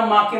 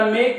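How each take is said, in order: First: The vowel is 'ah', with a final 'eh' syllable. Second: The vowel is 'ay', one syllable ending in k. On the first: The speaker calls it wrong. "ज्याला हा rules माहित नाही" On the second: The speaker calls it right. "या येचा उच्चार ए येडक्याचा होतो"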